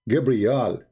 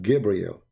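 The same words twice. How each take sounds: First: The name ends with an 'al' sound. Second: The name ends with an 'el' sound. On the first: This is the ancient form of the name. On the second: This is the later, changed form of the name.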